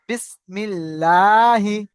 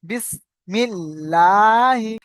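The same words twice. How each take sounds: First: বিসমিল্লাহি recited very slowly and louder; বিসমিল্লাহি intoned slowly, louder, for the class; slow demo recitation. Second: বিসমিল্লাহি very slow and louder; বিসমিল্লাহি drawn out in full, louder; model recitation. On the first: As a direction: stretch বিসমিল্লাহি out like a model reading. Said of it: "দেখেন, বা সিন জের বিস". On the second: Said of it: "যেমন বিসমিল্লাহি". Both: Shown as a demonstration.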